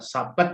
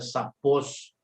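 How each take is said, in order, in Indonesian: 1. Kata ini diakhiri dengan bunyi T. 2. Kata ini diakhiri dengan bunyi S.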